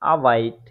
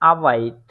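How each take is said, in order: The two takes are said the same way.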